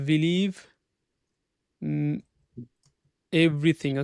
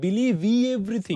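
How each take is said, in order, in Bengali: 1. শব্দ দুটো একসাথে জুড়ে যায়, কোনো অতিরিক্ত স্বরধ্বনি ছাড়া। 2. শব্দ দুটোর মাঝে একটি অতিরিক্ত স্বরধ্বনি আসে। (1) "নরমালি হচ্ছে কি" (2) "আমরা কিন্তু বলছি না"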